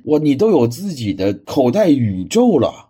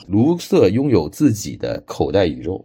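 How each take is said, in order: First: Slow, louder, marvelling; awestruck, drawn-out praise; amazed wow. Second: Said in the usual way. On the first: Real, not acted. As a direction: gasp at how much he has. Marvels at the pocket universe.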